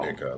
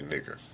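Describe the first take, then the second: First: The word ends with an 'a' sound. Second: The word ends with an 'er' sound. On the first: It is a friendly term for a friend. The speaker calls it right. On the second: It is a hostile insult. The speaker calls it wrong.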